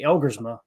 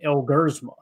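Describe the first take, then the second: First: The name is said in a plain English way. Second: The name is said so it sounds Spanish. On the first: "I say Elgersma" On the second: "sounded like a Spanish word"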